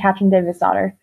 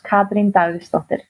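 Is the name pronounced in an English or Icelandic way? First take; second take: English; Icelandic. First: The name is said with English sounds. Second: The name is said with Icelandic sounds. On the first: This is the easy version others use. "the announcers have always just gone" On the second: This is how it is said in the home language. "in Icelandic, it's"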